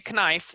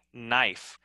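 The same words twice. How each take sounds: First: "knife" said as kuh-nife; "knife" with an extra kuh at the front; wrong, sounded K. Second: "knife" said as nife, softly falling; "knife" slower, with the K left out; silent K. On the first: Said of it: "We don't say knife". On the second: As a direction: begin "knife" straight on N. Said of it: "We say knife". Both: Shown as a demonstration.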